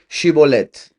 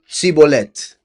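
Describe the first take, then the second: First: The word begins with a 'sh' sound. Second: The word begins with an 's' sound. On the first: The speaker calls it right. "Please say Shibolet" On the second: The speaker calls it wrong. "he was unable to pronounce it right"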